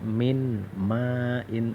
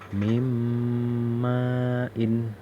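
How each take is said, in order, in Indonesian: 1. Bunyi n dibaca jelas dan terpisah. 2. Bunyi n menyatu dengan bunyi berikutnya. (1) "Tidak boleh dibaca" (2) "Nun ini dihilangin, bacanya seperti ini"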